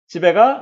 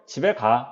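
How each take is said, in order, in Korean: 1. 끝이 올라갑니다. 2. 끝이 부드럽게 내려갑니다. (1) "의문문이 되는 거고요" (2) "평서형이 되는 거고요"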